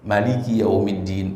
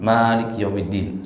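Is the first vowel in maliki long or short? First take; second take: short; long. First: The first vowel of maliki is said short. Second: The first vowel of maliki is held long.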